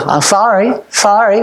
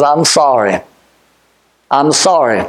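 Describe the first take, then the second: First: A quick, throwaway "I'm sorry, sorry"; careless, insincere "sorry, sorry"; flippant apology. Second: A low, heartfelt "I'm sorry"; humble, sincere "I'm sorry"; sincere apology. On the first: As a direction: toss off "I'm sorry, sorry" without meaning it. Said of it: "It can't be said". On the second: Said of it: "The only thing that I know that you can say is". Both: Shown as a demonstration.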